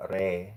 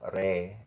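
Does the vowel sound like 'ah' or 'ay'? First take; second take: ay; ay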